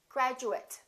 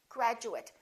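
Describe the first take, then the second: First: The ending is reduced, like 'it'. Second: The same.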